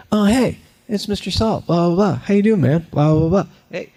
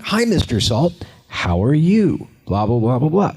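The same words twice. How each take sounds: First: High, lively greeting that tracks a moving cartoon; natural greeting. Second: High, stilted greeting to an empty spot; fake greeting. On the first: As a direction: chat easily while following an invisible friend. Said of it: "So you have to be like". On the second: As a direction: act like you're talking to nothing, falsely bright. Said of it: "It would look really fake". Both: Shown as a demonstration.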